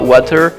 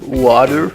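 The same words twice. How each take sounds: First: The T sound in the middle is pronounced clearly. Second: The T sound in the middle is dropped. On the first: "you don't say wa- water" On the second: "they don't put the T in water"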